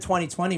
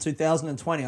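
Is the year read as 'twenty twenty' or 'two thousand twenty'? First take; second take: twenty twenty; two thousand. First: The year is read as twenty twenty. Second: The year is read as two thousand twenty. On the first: "the first time that I've said 2020" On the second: "rather than 2020"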